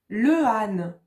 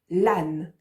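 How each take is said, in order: First: Two separate vowels are said, le then âne. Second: The article's vowel drops, joining into one word. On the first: The speaker calls it wrong. "ça fait bizarre" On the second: The speaker calls it right. "C'est mieux"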